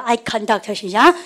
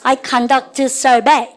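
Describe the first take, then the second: First: Very slow, drawn-out English; teacher models the phrase slowly; slow model reading. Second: "survey" drawn out very slowly; teacher stretches the phrase for repetition; stretched drill reading. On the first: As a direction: lead the class word by word. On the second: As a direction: draw every syllable out for the class. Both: Shown as a demonstration. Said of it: "우리 반 이거 보세요".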